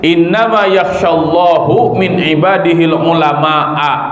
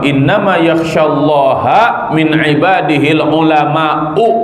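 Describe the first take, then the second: First: Allah ends in u, scholars ends in a. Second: Allah ends in a, scholars ends in u. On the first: God fears the scholars. The speaker calls it wrong. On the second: The scholars fear God. The speaker calls it right. "Kalau dibacanya innama yakhsyallaha berarti haknya Allah itu sebagai maf'ul"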